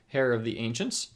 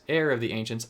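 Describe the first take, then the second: First: The first word starts with an h sound. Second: The first word starts with no h sound. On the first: The speaker calls it wrong. "I said hair" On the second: The speaker calls it right. "I shouldn't pronounce my silent H's"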